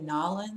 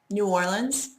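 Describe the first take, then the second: First: It is said the way local people say it. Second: It is said in a general, non-local way.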